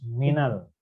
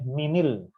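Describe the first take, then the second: First: The linking vowel after min is a. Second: The linking vowel after min is i. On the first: The speaker calls it right. "tapi harus minal" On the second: The speaker calls it wrong. "Min itu tidak boleh minil"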